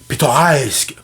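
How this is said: It is said in an exaggerated, formal broadcast accent. "l'accent Radio-Canada exagéré des années soixante-dix"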